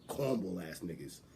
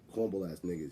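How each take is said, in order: First: The phrase is said forcefully, with aggressive punch. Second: The phrase is said mildly, without punch. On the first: The speaker calls it right. "Like you wanted to punch him with your chin" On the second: The speaker calls it wrong. "Not like this"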